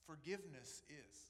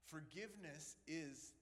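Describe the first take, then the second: No difference in how they are said.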